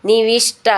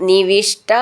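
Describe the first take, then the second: The two takes are said the same way.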